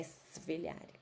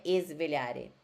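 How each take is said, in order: First: Svegliare starting straight on the hissing s; svegliare, hissed s and no added e; correct pronunciation, quiet. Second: Esvelhare with an added e at the start; esvelhare, vowel inserted before the s; wrong pronunciation. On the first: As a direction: say svegliare with no vowel before the s. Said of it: "com som de cobrinha". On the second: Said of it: "Não é esvelhare". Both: Shown as a demonstration.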